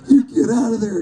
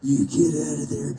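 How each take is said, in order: First: It is said in a scared, frightened way. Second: It is said in an angry, mad way.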